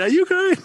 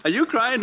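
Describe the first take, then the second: First: Much higher, squeaky teasing repeat; squeaky mock tease. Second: Raised, teasing inner voice asking; mock teasing question. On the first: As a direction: jump way up, as if catching yourself out. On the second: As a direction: poke fun at yourself, a bit higher.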